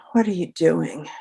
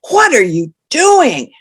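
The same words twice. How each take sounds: First: A subdued alternative reading; a different emotion. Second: Slow, high and loud shocked question; shocked, louder and higher. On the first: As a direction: say it quietly and evenly. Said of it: "Or if I'd rolled a six". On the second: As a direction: gasp it out in disbelief. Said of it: "I will say that sentence in a shocked tone of voice". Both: Shown as a demonstration.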